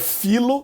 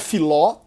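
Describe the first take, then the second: First: The stress falls on the first syllable. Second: The stress falls on the last syllable. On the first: The speaker calls it right. "é filo, é como em um filo de lana" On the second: The speaker calls it wrong. "não é filó"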